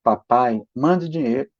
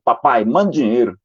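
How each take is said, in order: First: A son asking nicely; polite request. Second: A bossy, demanding note; curt demand. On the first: Mother rereading the note kindly, as a polite request. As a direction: read it as a gentle, polite plea. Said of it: "Olha como é que tá escrito aqui". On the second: Father reading his son's note as a rude command. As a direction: read the note as a blunt order. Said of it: "não foi assim que ele falou". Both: Retold or imitated.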